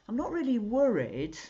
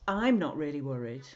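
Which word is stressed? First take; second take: worried; i'm. First: The stress falls on the word worried. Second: The stress falls on the word I'm. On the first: The speaker feels something other than worry. "That means you're something else, doesn't it?" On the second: Someone else is the one who is worried. "That really means somebody else is really worried"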